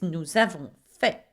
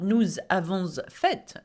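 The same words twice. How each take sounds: First: The final letter is left silent. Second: An extra final consonant is pronounced. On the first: The speaker calls it right. "you do not pronounce the last letter here" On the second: The speaker calls it wrong. "It's not nous avons fait"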